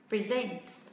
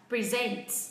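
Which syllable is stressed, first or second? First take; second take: second; second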